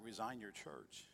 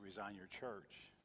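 First: Slow hushed voice of God. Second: Quiet, drawn-out divine command; a whispered-soft voice of God, unhurried; slow, very hushed voice of God. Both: Retold or imitated. Voice of God retold.

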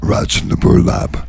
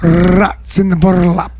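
First: Half-whispered album name; odd whispery voice. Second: "Rats" with a trilled r, slow; rolled r. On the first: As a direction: say it in a hushed rasp. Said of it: "Does it have to sound like that". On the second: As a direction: roll the r in "Rats" slowly. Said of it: "shall I roll my R's?". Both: Shown as a demonstration.

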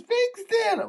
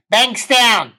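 First: Very high, soft mock whimper; crying. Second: High, loud mock bellow; exasperated yell. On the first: Sobbing passenger repeats her suburb to puzzled driver, crying. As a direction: squeal it tearfully so it is hard to make out. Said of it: "Can't make out what you're saying". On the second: Passenger repeats suburb for driver who missed it, exasperated yell. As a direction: drop the sobbing and belt it out.

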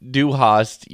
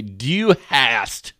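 First: "Du hast" the German way, with an open ah; "Du hast" with a German ah vowel; German pronunciation. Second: "Du hast" read as English words, flat a as in has; "Du hast" as plain English words; English-word pronunciation. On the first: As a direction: say "Du hast" as a German would, rhyming hast with cost. Contrasts German and English pronunciation. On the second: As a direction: anglicise "Du hast" so hast sounds like "hassed". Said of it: "say it with, like, its English words". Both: Shown as a demonstration.

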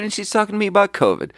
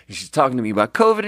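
First: Much higher, fast, disbelieving "covid"; exasperated repeat. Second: Said in the usual way. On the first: Shown as a demonstration. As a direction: climb up in pitch on the repeat. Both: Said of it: "repeats it louder and higher".

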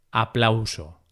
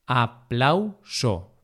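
First: Said in the usual way. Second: Aplauso broken slowly into a, plau, so; syllable by syllable. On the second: Shown as a demonstration. Teacher dividing aplauso for learners, syllable by syllable. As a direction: say "aplauso" in separate syllables with pauses.

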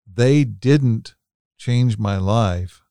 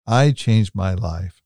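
First: "they" picked out, slow and deliberate; stress on THEY. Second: "I" picked out, slow and deliberate; stress on I. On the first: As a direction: lean on "they", spacing out the words. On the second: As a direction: lean on "I", then finish slowly. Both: Real, not acted. Contrasts who made the change.

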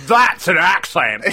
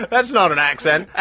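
First: Slow, drawn-out mock Australian; Crocodile Dundee Australian. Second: Said in the usual way. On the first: Co-host parodying the knife line, broad mock Australian. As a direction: stretch it in a hammy Aussie accent. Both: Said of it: "I was more Crocodile Dundee there".

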